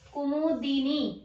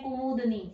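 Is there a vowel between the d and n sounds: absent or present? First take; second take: present; absent. First: A short i vowel is heard between d and n. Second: No vowel is heard between d and n. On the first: The speaker calls it right. "कुमुदनी नहीं है ये" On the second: The speaker calls it wrong. "कई कहते हैं कुमुदनी"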